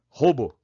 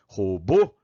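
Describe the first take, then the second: First: The stress is on the first syllable. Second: The stress is on the last syllable. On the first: The speaker calls it wrong. "Chama no parquinho com a tônica natural do jeito que tá aí" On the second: The speaker calls it right. "Deslocou pro O final"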